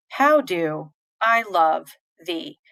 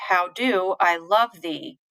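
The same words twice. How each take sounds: First: Slow, chopped "How do, I love, thee"; stiff, slow iambs with gaps before "I" and "thee"; robotic meter. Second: Slow "How do I love thee", stressing "do" and "love"; joined-up line with sharper "do" and "love"; read-out stress. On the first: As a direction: break "How do I love thee" into stiff two-beat pieces. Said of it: "It feels robotic". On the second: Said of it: "if you read out". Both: Shown as a demonstration.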